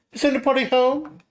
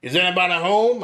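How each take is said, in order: First: Louder, higher call into the house. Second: Louder call into the house. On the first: Player character calls into the mansion, raised voice. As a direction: call into the empty hall. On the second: Player character calls again into the mansion, raised voice. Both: Acted. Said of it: "I raised my voice".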